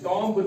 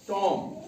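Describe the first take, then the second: First: The final b sound is pronounced. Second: The final b sound is silent. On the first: The speaker calls it wrong. "टॉम्ब नहीं पढ़ना है, बी की आवाज नहीं निकालनी है" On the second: The speaker calls it right. "हमने बी silent रखना है और टॉम ही पढ़ना है"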